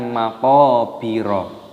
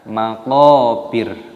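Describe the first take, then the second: First: The word ends with an extra vowel sound. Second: The word ends on a consonant, no vowel. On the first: The speaker calls it wrong. "bukan maqabiro" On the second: The speaker calls it right. "roknya di sini dimatikan ataupun disukun, dibaca maqabir"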